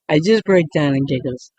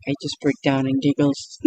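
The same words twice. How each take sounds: First: Real giggles breaking into the words; cracking up mid-sentence, a bit louder; laughing through it. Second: Said in the usual way. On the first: Real, not acted. Vlogger cracking up trying ASMR, laughing. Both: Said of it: "I keep breaking out in laughter".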